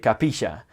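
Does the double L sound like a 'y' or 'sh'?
sh. It has an Uruguayan 'sh' sound.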